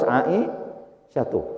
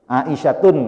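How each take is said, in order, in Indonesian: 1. Nama itu diakhiri vokal, tanpa n. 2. Nama itu diakhiri bunyi n tambahan. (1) "harus Aisyatu" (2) "Aisyatun nggak boleh"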